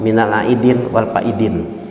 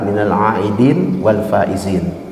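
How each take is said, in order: First: The last word is said with a d sound. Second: The last word is said with a z sound. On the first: The speaker calls it wrong. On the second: The speaker calls it right. "Ucapannya harus benar"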